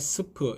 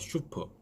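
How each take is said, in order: First: It begins with a plain s sound. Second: It begins with a sh sound. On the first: The speaker calls it wrong. "스프 이렇게 하지 마시고" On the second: The speaker calls it right. "슈프 발음입니다"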